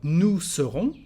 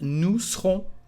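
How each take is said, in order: First: The e sound in serons is pronounced. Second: The e sound in serons is dropped. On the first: "We've got nous serons" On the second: "you can say just nous serons"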